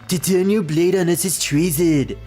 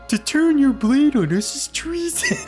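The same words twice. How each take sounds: First: It is said in a politician impression voice. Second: It is said in a cartoon cat character voice. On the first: "trying to do the Donald Trump impression is just, like, really tough on my throat" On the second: "I'm gonna go back to the big, the cat voice for this guy"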